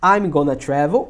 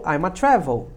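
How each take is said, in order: First: 'Going to' is reduced to 'gonna'. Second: 'Going to' is reduced to a single 'a'.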